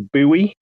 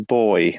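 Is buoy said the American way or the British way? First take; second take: American; British. First: The word is said the American way. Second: The word is said the British way. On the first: "one of my favorite American words ... which is a very different pronunciation" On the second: "we call it a buoy"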